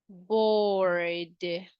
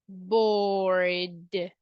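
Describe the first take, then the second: Both takes have the same delivery.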